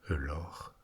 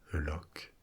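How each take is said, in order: First: The word is said the native Scottish way. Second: The word is said the common non-Scottish way.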